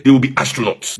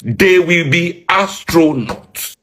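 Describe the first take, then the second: First: Said in the usual way. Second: "They will be astronauts" stretched slow, every word dragged out; slow it down to land the joke; drawn-out repeat. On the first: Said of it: "repeated for emphasis". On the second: Shown as a demonstration. Mocking the training budget, said slow and drawn out. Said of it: "repeated slower for emphasis".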